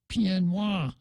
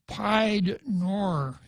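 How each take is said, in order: First: It is said with French-style sounds. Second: It is read as spelled, in English style. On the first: The speaker calls it right. "It's pronounced more like pied noir" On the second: The speaker calls it wrong. "it looks like pied noir, if you see it in writing"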